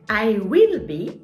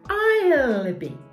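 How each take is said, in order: First: The word 'will' is said in full. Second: The word 'will' is shortened to an 'll' sound.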